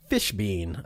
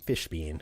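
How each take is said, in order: First: Said in the usual way. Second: "Fishbein" said low and soft, relishing it; savoring the name. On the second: Shown as a demonstration. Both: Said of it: "I love that name".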